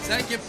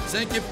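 No difference in how they are said.

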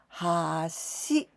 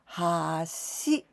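First: The pitch rises across the word. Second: The pitch rises across the word.

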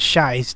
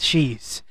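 First: The name is said like 'shies'. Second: The name is said like 'cheese'. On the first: The speaker calls it wrong. "I thought the pronunciation of shy, cheese was shies" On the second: The speaker calls it right. "not cheese"

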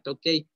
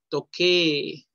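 First: The ending is an e-i diphthong. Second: The ending is a long e. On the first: The speaker calls it wrong. "no se pronuncia tokei" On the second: The speaker calls it right. "Con doble E"

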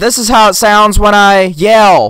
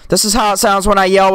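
First: The yell is heard without compression, staying loud. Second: The yell is compressed and turned down quieter. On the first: "with the compressor off" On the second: "with the compressor on"

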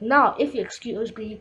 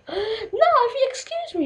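First: It is said in the speaker's natural voice. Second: It is said in a put-on lady's voice. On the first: The speaker calls it wrong. "That's not my" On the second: The speaker calls it right. "like a voice of like a lady"

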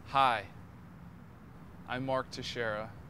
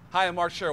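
First: It is said slowly. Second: It is said quickly.

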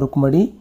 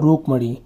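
First: The vowel after the r is short. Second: The vowel after the r is long. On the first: The speaker calls it right. "र में छोटू की मात्रा" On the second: The speaker calls it wrong. "र में बड़ू की मात्रा"

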